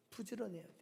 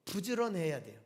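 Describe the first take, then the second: First: Much softer, almost under the breath; a hushed second saying of 부지런해야 돼요; soft repeat. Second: Said in the usual way. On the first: Shown as a demonstration. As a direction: drop the voice right down for the echo. Preacher repeats the exhortation, softly.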